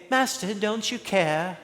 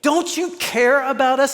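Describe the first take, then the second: First: Soft, mild question, no urgency; meek quiet ask. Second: High, pleading accusation; desperate pleading cry. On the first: Shown as a demonstration. Wrong take of frightened disciples, asked meekly. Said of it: "No, Matthew reveals that they were screaming". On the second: Retold or imitated. Disciples in the storm crying out at Jesus, high and pleading. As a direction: cry it out at him in panic. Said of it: "they were screaming".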